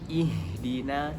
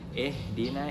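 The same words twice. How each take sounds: First: The first vowel is a clear 'i' sound. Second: The first vowel is bent toward an 'e' sound. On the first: The speaker calls it right. "Yang benar adalah" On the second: The speaker calls it wrong. "jangan ihdina, itu salah"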